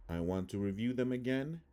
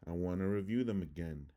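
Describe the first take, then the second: First: Said in the usual way. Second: "want to" slurred into "wanna"; weak swallowed first vowel in "again"; schwa reduction. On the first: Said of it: "I'm gonna read the word". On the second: Shown as a demonstration. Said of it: "how it would sound in English".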